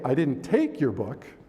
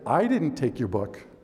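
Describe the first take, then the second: First: The word "take" carries the main stress. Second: The word "I" carries the main stress. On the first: Something else happened to it. "something else happened to it" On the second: Someone else took it. "Somebody else took it"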